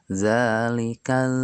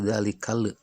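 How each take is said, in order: First: The L sound is held without bouncing. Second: The L sound bounces with an echo. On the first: The speaker calls it right. "lam sukun tidak boleh memantulkan atau dipantulkan" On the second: The speaker calls it wrong. "tidak boleh"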